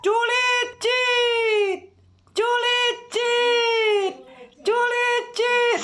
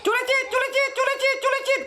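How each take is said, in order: First: The call is imitated slowly. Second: The call is imitated fast.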